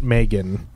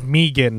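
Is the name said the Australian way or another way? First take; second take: other; Australian. First: The name is said a non-Australian way. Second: The name is said the Australian way. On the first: This is how others commonly say it. The speaker calls it wrong. "not Megan ... I was saying it wrong forever" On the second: This is how the person herself says it. The speaker calls it right. "it is Megan, ... because she says it Megan. She's from Australia"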